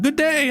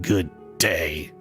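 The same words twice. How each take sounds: First: It is said in a friendly, pleasant tone. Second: It is said curtly, as if offended.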